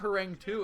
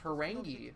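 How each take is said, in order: First: The name ends with a 'two' sound. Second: The name ends with an 'ee' sound. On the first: The speaker calls it wrong. "it's not Harangue two" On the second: The speaker calls it right. "it's pronounced Harangi"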